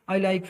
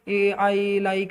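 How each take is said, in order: First: It is said smoothly, with no filler sound first. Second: It is said haltingly, with a filler sound first. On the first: The speaker calls it right. "जिस तरह normally मैं बोल रहा हूँ" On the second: The speaker calls it wrong. "इस तरह आप लोगों ने नहीं बोलना"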